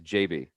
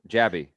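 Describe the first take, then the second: First: The name is said as two letters. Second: The first syllable sounds like 'jab'. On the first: The speaker calls it wrong. "every single Indian celebrity says J B" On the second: The speaker calls it right. "like jab"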